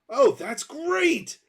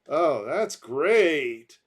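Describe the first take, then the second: First: It sounds positive and enthusiastic. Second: It sounds negative and sarcastic.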